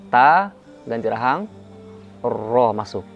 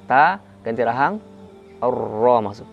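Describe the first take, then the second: No difference in how they are said.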